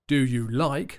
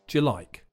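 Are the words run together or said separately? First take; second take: separately; together. First: Each word is said separately and fully. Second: The words run together in a reduced form.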